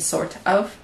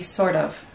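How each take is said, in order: First: The T is clear and not linked. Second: The T is linked and sounds like D. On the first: The speaker calls it wrong. "instead of saying sort of" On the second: The speaker calls it right. "When we link it with of, ... it would be sort of"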